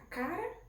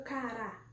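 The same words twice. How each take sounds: First: "cara" stressed CA-ra; CA-ra, unaccented final a; stress on first syllable. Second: "cará" stressed ca-RÁ; ca-RÁ, landing on the accented ending; stress on final syllable. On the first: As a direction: say "cara" with a strong first a, weak ending. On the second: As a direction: say "cará" with a strong, open last a. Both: Shown as a demonstration. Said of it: "Como a tia colocou esse acento".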